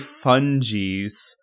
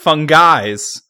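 First: The g is soft, not like 'fun guys'. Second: The g is hard, like 'fun guys'. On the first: "I want to say Fungies" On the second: "it could be pronounced Fungies, because they're fun guys"

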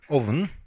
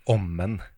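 First: The middle has a v sound before the n. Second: The middle has an m sound and no v. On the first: It is the standard form of the word. "Skulle jeg sagt ovnen?" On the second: It is a trace of the speaker's dialect. "Det der er eneste sporet av dialekt jeg hører til deg"

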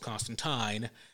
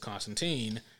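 First: The name is said the British way. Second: The name is said the American way. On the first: This is how the creators say it. "If you ask either Garth Ennis or Alan Moore, the gentleman who created Constantine, they would tell you it's pronounced Constantine" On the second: This is how an American company taught people to say it. "DC is an American company, and they have trained everybody to pronounce it as Constantine"

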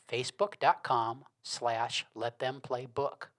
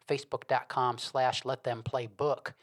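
First: It is said slowly and deliberately. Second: It is said at normal speed.

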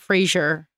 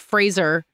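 First: The name sounds like the name Frasier. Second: The name rhymes with the word razor. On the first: The speaker calls it wrong. "not Fraser, like Fraser Crane" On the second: The speaker calls it right. "like Razor"

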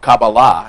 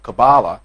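First: The word has a Hebrew pronunciation. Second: The word has an English pronunciation.

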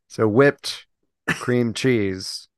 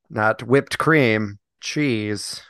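First: There is a pause after 'whipped'. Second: There is no pause after 'whipped'. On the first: The speaker calls it right. "Space between whipped and cream" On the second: The speaker calls it wrong.

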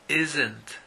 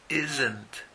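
Both takes have the same delivery.

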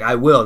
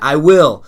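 First: It is said timidly, without conviction. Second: It is said firmly, with conviction.

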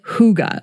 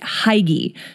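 First: It is said with the native Danish pronunciation. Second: It is read as an English word would be. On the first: The speaker calls it right. "the Danes pronounce it" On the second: The speaker calls it wrong. "it looks like you should pronounce it"

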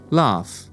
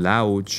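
First: The word ends in a plain f sound. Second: The word does not end in an f sound. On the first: The speaker calls it right. "the end of the word is a simple f sound" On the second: The speaker calls it wrong. "Everybody pronounces this word in funny ways. I've heard lauch"

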